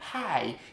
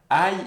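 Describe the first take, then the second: First: The word starts with an audible h sound. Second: The word starts without an h sound. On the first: The speaker calls it right. "il faut faire un H, il faut dire hi" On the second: The speaker calls it wrong. "il ne faut pas dire aïe"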